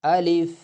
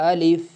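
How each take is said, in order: First: The vowel is held only a short time. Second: The same.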